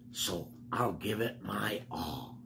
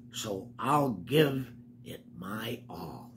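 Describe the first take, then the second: First: Said in the usual way. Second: Slow breathy whisper. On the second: Acted. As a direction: hush it like a secret to the kids. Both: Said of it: "Listen to him".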